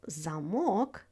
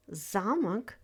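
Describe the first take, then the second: First: ЗамО́к, said "za-MOK" with the end stressed; stress on second syllable. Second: ЗА́мок, first syllable stressed. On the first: Teacher showing learners the word for lock, stress on the second syllable of "замок". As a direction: lean on the final syllable of "замок". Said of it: "Same letters, different word". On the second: Teacher showing learners the word for castle, stress on the first syllable of "замок". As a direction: hit the ZA in "замок". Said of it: "stress is phonemic". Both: Shown as a demonstration.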